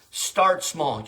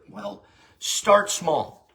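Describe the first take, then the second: First: Said in the usual way. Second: "start small" drawn out slowly, each word weighted; slow emphatic start small. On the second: Shown as a demonstration. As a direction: stretch out "start small" to drive it home.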